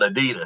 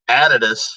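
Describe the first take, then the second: First: It is pronounced the American way. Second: It is pronounced the Australian way. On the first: This is how people in the speaker's own country say it. "we call it" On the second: This is how people in Australia say it. "they say the word Adidas"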